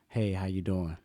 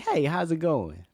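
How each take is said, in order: First: It is said flatly, without inflection. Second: It is said cheerfully, with lively inflection.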